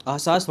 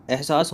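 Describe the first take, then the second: First: अहसास with a plain "a" opening, a-ha-saas; wrong form अहसास. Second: एहसास with an "e" opening, eh-saas; correct form एहसास. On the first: Teacher rejecting a misspelt word, अहसास with short "a". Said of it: "अहसास थोड़ी होता है". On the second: Teacher giving students the correct word, एहसास with "eh". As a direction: say एहसास starting on "eh". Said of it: "एहसास होता है ना". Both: Shown as a demonstration.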